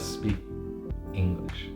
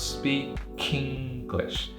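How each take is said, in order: First: The K ends speak softly, apart from English. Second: The K links forward and starts English strongly. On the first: The speaker calls it wrong. "it's not smooth, it doesn't flow" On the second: The speaker calls it right. "because the K is now at the beginning of the syllable, it's got a stronger sound"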